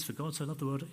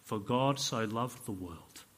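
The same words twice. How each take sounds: First: Quick, quiet, offhand recitation; dismissive recitation. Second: Slow, hushed scripture reading; reverent Bible reading. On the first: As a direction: rattle it off as overfamiliar words. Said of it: "I've read it a hundred times. I know what it says". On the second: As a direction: read it slowly, letting each word land. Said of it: "opened his Bible and he started reading". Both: Acted.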